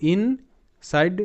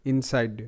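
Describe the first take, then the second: First: "ইনসাইড" slowly split, ইন, pause, সাইড; sounded out in parts. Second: Said in the usual way. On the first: Shown as a demonstration. Teacher joining two known parts, slow "ইন - সাইড" sounded out. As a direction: stretch ইন and set সাইড apart. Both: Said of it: "আমরা এটা first দেখেছি".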